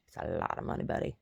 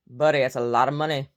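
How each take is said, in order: First: Dropped, lower, softer mutter; low sarcastic aside. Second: Loud, punchy call to Buddy; loud mock address. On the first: Acted. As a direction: drop the voice low and dry. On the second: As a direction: hit it loud and sarcastic. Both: Mocking George Santos.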